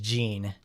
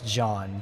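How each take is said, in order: First: The name is said like the English word jeans. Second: The name is said with a French pronunciation. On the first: "She's pronounced like the clothing because she's from America" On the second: "I also took French class, so that's how we pronounced"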